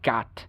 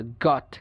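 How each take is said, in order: First: American গাট (got) as GAHT; American pronunciation. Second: British গট with rounded O; British pronunciation. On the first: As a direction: open AH in গাট. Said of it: "উচ্চারণ করে আ". (গাট-এ আ, American উচ্চারণ) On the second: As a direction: say গট with lips rounded. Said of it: "ব্রিটিশরা যেসব জায়গায় অ". (গট-এ অ, British উচ্চারণ) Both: Shown as a demonstration.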